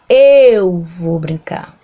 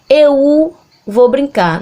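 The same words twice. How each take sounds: First: The e in 'eu' sounds stronger than the u. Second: The u in 'eu' sounds stronger than the e. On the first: The speaker calls it right. "a gente fala eu vou brincar" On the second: The speaker calls it wrong. "A gente não fala eu"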